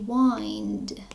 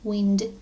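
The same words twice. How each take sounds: First: The vowel is an 'eye' sound, as in find. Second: The vowel is a short 'i' sound. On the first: It is the verb meaning to turn or coil. "Եթե սա բայ լիներ, կասեինք to wind" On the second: It is the noun meaning moving air. "իրեն ոչ թե ասում ենք find-ի պես այն, այլ ասում ենք e"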